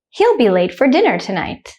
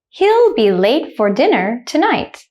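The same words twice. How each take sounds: First: The sentence is spoken quickly. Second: The sentence is spoken slowly. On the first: "the second time I will say it quickly, like a native speaker" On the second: "The first time I will say it slowly"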